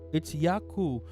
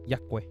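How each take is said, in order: First: The name ends in a 'koo' sound. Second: The name ends in a 'kweh' sound. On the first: The speaker calls it right. "You pronounce it like it's Yaku" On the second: The speaker calls it wrong. "I'm gonna mispronounce everybody's name"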